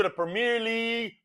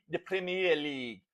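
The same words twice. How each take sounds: First: Said in the usual way. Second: Softer, lower attempt at an English accent. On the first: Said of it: "I was fixing to do it". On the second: Shown as a demonstration. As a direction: try a British pronunciation, low and quiet. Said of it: "they talk with that English accent".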